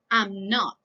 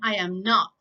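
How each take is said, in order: First: The first two words are merged into one syllable. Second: All three words are said fully and separately. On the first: "Contracted negative form" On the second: "Negative form"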